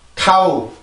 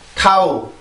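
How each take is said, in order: No difference in how they are said.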